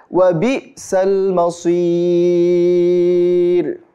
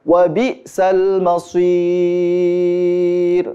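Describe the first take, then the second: No difference in how they are said.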